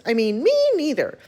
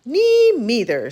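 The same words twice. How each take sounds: First: Small mouse voice, set higher; tiny voice. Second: Slow, small mouse voice; a tiny mouse piping in. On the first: Mouse correcting himself, tiny and timid. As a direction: repeat it as a timid little mouse. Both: Acted. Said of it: "said a tiny voice".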